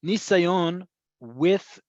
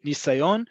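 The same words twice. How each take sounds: First: "nisayon" drawn out slowly, each syllable clear; slow syllable-by-syllable model. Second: Said in the usual way. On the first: Shown as a demonstration. Teacher slowly sounding out "nisayon" for students. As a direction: spell out "nisayon" slowly for beginners. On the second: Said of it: "we had that word before".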